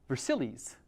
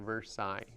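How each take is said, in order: First: Said the English way, with an anglicized ending. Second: Said the French way, with the ending cut short. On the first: This is how locals here would say it. "I suppose we would say" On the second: This is how native speakers say it. "that's how the French say it. They just pretty much stop a route right there"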